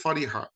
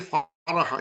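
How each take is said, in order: First: The middle consonant is followed by an 'i' vowel. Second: The middle consonant is followed by an 'a' vowel. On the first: The speaker calls it right. "It's always fariha" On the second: The speaker calls it wrong. "it never be faraha"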